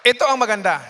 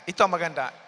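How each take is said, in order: First: Emphatic. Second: Said in the usual way. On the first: Real, not acted.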